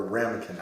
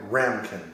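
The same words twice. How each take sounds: First: Ramekin said as three syllables, RAM-uh-kin. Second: Ramkin said as two syllables, RAM-kin. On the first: Host offering the other title pronunciation, Ramekin in three syllables. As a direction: say Ramekin with a short middle vowel. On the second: Host unsure of the film's title, trying Ramkin as two syllables. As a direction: say Ramkin with no middle vowel. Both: Shown as a demonstration. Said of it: "not sure exactly how it's pronounced".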